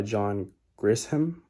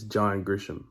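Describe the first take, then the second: First: Grisham said as "Gris-ham" with a hard S-H; "John Grisham" misread with S then H; "Grisham" split as Gris-ham; wrong pronunciation. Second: Grisham said as "Grish-um" with SH; "John Grisham" fixed to GRISH-um; "Grisham" with a soft sh sound; corrected pronunciation. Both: Shown as a demonstration. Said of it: "no, that's not how you say it".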